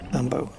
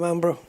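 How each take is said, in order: First: No r sound follows the b. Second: An r sound follows the b. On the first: The speaker calls it right. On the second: The speaker calls it wrong.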